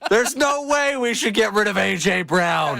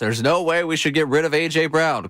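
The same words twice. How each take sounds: First: It is read in a mean, angry voice. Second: It is read in a flat, mild voice. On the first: The speaker calls it right. "Read it like he's mad" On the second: The speaker calls it wrong. "Could you do a little bit better as far as the voice?"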